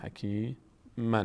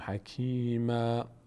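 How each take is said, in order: First: The word ends with an n sound. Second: The word ends on a long a vowel. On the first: The reader continues without stopping. "اگر بخونیم حکیما میشه" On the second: The reader stops on this word. "اگر روی حکیما وایستیم میشه حکیما"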